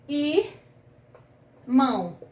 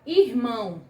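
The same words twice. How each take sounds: First: "irmão" split as ir... mão, long pause between; syllable by syllable. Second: Said in the usual way. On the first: Shown as a demonstration. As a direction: sound out "irmão" slowly in two separate pieces. Teacher sounds out the word.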